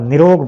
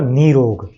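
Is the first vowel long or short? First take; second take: short; long. First: The first vowel is short. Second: The first vowel is long. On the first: The speaker calls it wrong. "छोटी ई की मात्रा निरोग बोल देते हैं" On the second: The speaker calls it right. "छोटी ई की मात्रा बड़ी में जुड़कर"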